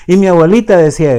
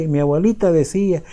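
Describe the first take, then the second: First: Louder and faster, repeating with emphasis; insistent grandchild. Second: Said in the usual way. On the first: Retold or imitated. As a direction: hammer home the repeated phrase like an eager grandchild. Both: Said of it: "muchos nietos siguen diciendo".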